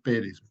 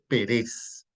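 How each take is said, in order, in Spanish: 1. El acento está en la primera sílaba. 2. El acento está en la última sílaba. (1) "quiere decir Pérez" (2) "en realidad dice Pérez. Si no tiene la tilde en la primera sílaba, no dice Pérez"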